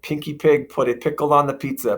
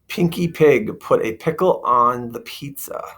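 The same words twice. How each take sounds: First: It is said very quickly, as if racing. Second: It is said at a normal, unhurried speed.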